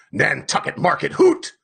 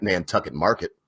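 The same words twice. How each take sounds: First: Scornful repeat rising to a hoot; mocking echo. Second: Said in the usual way. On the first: A narrator's reading. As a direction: throw his words back with scorn. Ahab mocks Starbuck's words.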